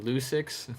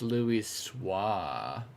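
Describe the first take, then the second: First: The name ends with a sound like 'six'. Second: The name ends with a sound like 'swar'. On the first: This is how other people will get it wrong. The speaker calls it wrong. "I can't wait to hear people pronounce this" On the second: This is the proper way to say the name. The speaker calls it right. "I'm gonna pronounce it right though"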